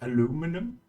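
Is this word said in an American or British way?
American. It is said with an American pronunciation. "in America you say like aluminum"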